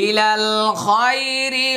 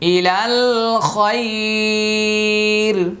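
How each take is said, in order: First: It runs on into the next word, ending in -i. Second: It stops, with the vowel before the end lengthened. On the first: The reader continues into the next verse without pausing. "ওয়াকফ করবো না, মিলিয়ে পড়বো" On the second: The reader pauses at the end of the verse. "এখানে আমি একটা ওয়াকফ করেছি, আর এটা লিনের হরফের বামের হরফে ওয়াকফ করলে একালিফ টানতে হয়।"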